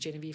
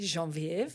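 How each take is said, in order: First: The name is pronounced the English way. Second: The name is pronounced the French way. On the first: "as you correctly said" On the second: "as my husband would like to say ... the French pronunciation"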